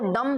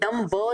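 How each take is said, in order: First: The word ends in an m sound. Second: The word ends with an audible b sound. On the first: The speaker calls it right. "अब इसको डम बोलेंगे भाई" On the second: The speaker calls it wrong. "डम ब नहीं बोलेंगे"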